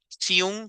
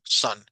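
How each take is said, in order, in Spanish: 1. La vocal se pronuncia como un sonido largo. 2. La vocal se pronuncia como un sonido corto. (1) "Ninguno de ustedes va a pronunciar siun para sol" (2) "sino va a pronunciarlo como son"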